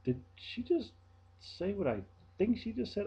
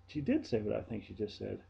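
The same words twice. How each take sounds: First: High, stunned did-she-just-say-that; stunned rhetorical question; disbelief. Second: Said in the usual way. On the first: Retold or imitated. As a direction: ask it floored, voice jumping up. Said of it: "I'm sitting there going".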